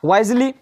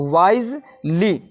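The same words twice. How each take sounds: First: Said in the usual way. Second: "wisely" slow, as "wise", pause, "ly"; split into syllables. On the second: Shown as a demonstration. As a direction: sound out "wisely" in two separate beats. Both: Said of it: "तो wise एक हो गया और ली दो हो गया".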